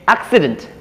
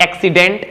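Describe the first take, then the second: First: "accident" as AK-si-dunt; correct pronunciation. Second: "accident" as ak-si-DENT, full e at the end; wrong pronunciation. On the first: Teacher correcting for learners, "accident" with weak last vowel. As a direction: reduce the ending of "accident" to "dunt". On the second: Teacher showing learners the mistake, "accident" ending in full "dent". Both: Shown as a demonstration. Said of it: "not accident".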